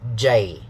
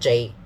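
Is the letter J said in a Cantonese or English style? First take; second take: English; Cantonese. First: It is said with an English pronunciation. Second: It is said with a Cantonese pronunciation. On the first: The speaker calls it right. "the English way will be to say J" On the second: The speaker calls it wrong. "not J in Cantonese"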